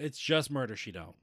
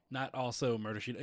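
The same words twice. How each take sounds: First: Just punched loud as the correction; stress on just. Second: Also said with stress as the mistaken word. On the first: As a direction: hit the word "just". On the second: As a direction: lean on "also". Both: Shown as a demonstration. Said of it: "I don't know why I said that".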